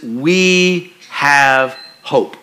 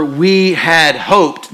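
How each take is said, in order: First: Very slowly, "we have hope" with weight on "hope"; slow, stressed on hope. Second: Very slowly, "we had hoped" with weight on "hoped"; slow, stressed on hoped. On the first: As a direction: let "hope" land, with no D at the end. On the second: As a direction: lean hard on the "D" at the end of "hoped". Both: Shown as a demonstration. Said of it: "takes the D off the end of hope".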